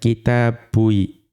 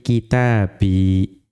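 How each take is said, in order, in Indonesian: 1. Huruf 'b' diikuti 'u' sebelum 'i'. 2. Huruf 'b' langsung diikuti vokal 'i'. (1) "dhammah misalnya, menjadi tidak sesuai" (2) "ba'nya dibaca kasroh"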